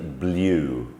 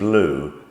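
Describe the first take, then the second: First: The vowel is a yoo sound. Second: The vowel is a plain oo sound. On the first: "but you imagine trying to say blue" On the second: "So we say blue"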